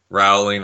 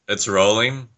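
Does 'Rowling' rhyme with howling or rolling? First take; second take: howling; rolling. First: The first syllable rhymes with 'howl'. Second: The first syllable rhymes with 'roll'. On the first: The speaker calls it wrong. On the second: The speaker calls it right.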